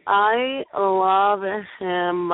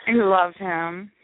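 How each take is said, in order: First: Very slow, swooning I love him; dreamy drawn-out echo. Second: Drawn-out slow I love him; slow fond declaration. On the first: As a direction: draw it out like a swoon. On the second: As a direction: stretch it slowly, fondly. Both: Shown as a demonstration.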